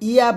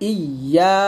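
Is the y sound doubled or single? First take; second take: single; doubled. First: The y sound is short and single. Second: The y sound is held and doubled. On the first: The speaker calls it wrong. "ইয়া বলবেন না, ইয়া বললে কিন্তু অর্থ" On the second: The speaker calls it right. "একসাথে হবে ইয়া"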